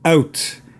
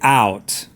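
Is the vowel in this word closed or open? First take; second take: closed; open. First: The vowel is closed, Canadian style. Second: The vowel is open, American style. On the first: "It's more of a closed sound coming from the Scottish" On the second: "which is a much more open sound"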